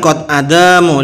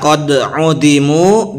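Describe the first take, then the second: First: The word after 'qad' starts with 'a'. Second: The word after 'qad' starts with 'u'. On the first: The speaker calls it wrong. "Bukan qad adamu" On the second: The speaker calls it right. "Itu bisa qad udimu"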